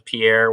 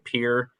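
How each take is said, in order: First: It is said like the French name. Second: It is said the local South Dakota way. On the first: This is how it may be said in the original language. "Maybe that's how it really is in the language, but no one in South Dakota says Pierre" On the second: This is how the people who live there say it. "We all say Pierre, including everybody uh, that lives there"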